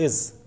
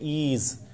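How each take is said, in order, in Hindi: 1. स्वर छोटा और तेज़ है। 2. स्वर लंबा है, जैसे डबल ई। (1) "इज छोटा साउंड है" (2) "अगर आप इसको डबल ई जेड की तरह बोले ईज, तो ये गलत हो जाएगा"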